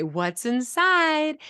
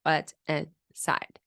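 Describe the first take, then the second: First: "What's inside" drawn out slowly, climbing high at the end; rising question intonation. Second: "What's inside" slow and toneless, no question rise; lack of intonation. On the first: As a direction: lift "inside" way up as an eager question. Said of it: "there's a rising intonation at the end". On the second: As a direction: say "What's inside" in separated pieces without any lift. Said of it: "there's a lack of intonation". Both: Shown as a demonstration.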